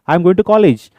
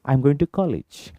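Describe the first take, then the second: First: It is shouted at a loud volume. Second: It is spoken at a calm, normal volume. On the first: The speaker calls it wrong. "ऐसा चिल्लाने की जरूरत नहीं है" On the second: The speaker calls it right. "खत्म"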